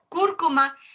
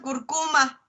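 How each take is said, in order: First: The stress is on the first syllable. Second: The stress is on the second syllable. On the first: The speaker calls it right. "está ahí un acentote gigante" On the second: The speaker calls it wrong. "lo pronuncian curcuma"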